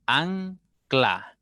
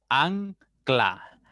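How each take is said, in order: First: Said in the usual way. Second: Ancla split slowly as an-cla; syllable by syllable. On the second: Shown as a demonstration. Teacher to pupils, sounding out ancla in syllables. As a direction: stretch ancla into two syllables. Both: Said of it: "debo separar la N de la C L".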